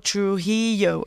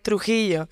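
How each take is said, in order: First: The name is said with an English pronunciation. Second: The name is said with a Spanish pronunciation. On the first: This is how English speakers say it. The speaker calls it wrong. "They're like, oh, Trujillo" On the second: This is how the name's owner says it. The speaker calls it right. "I go like Trujillo"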